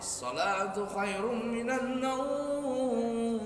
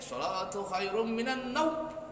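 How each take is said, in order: First: The phrase is said in an overdone, showy way. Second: The phrase is said too short and clipped. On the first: "Atau terlalu belagu" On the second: "Jangan juga pendek"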